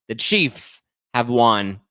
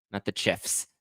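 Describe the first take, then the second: First: "the Chiefs have won" slow and louder, each word weighted; slow emphatic statement. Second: Said in the usual way. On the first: Shown as a demonstration.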